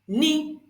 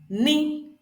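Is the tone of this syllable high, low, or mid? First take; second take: high; high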